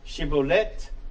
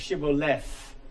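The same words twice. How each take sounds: First: The ending is a plain t sound. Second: The ending is a th sound. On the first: It marks the speaker as belonging to one dialect group. "pronounce the T and leave, leave the H silent" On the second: It marks the speaker as belonging to the other dialect group. "or pronounce the H"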